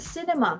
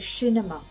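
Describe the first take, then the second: First: The word begins with a plain s sound. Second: The word begins with an sh sound.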